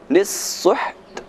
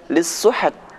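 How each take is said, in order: First: The word ends without a vowel before the t. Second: An extra vowel is added before the final t. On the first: The speaker calls it right. "namun lis-suht" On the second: The speaker calls it wrong. "Jangan dibaca lis-suhat"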